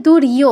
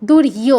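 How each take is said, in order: Both takes have the same delivery.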